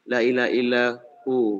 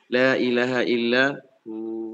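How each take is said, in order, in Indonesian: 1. Vokal akhir dipanjangkan. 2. Suku kata terakhir berakhir pendek, tanpa pemanjangan. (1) "itu jadi jadi kayak mad gitu" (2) "itu sukun ya. Sukun"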